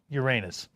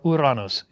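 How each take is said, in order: First: The name is said the usual English way. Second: The name is said the more Greek way.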